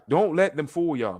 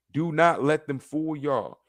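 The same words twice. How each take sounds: First: Said in the usual way. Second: Slow, weighted "Do not let them fool y'all"; emphatic warning. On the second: Real, not acted. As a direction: space out "Do not" and lean on it.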